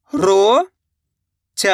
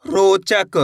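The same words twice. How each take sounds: First: "रोचक" split as "रो ... च ... क" with long pauses; very slowly sound out each part of "रोचक"; letter by letter. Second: Said in the usual way. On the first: Shown as a demonstration. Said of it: "एक एक अक्षर का उच्चारण". ("रोचक" का हर अक्षर अलग: रो ... च ... क) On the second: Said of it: "शब्द का उच्चारण".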